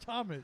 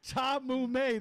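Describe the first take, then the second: First: The name is said in the usual way, Thomas. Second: The name is said as two syllables, Tom Mume. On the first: The speaker calls it right. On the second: The speaker calls it wrong.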